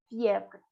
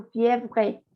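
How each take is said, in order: First: Fièvre with the final E left silent. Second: Fièvre with the final E sounded out; wrong final E. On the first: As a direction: end Fièvre on the consonants, no "eh". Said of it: "La última E no". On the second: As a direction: say fièvre ending in an audible "eh". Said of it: "si no dirías tú fièvre". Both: Shown as a demonstration.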